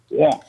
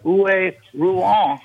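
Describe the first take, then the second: First: The name starts with a W sound. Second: The name starts with an R sound. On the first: The speaker calls it right. "That's how they pronounce it" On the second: The speaker calls it wrong. "I said. And he couldn't understand me"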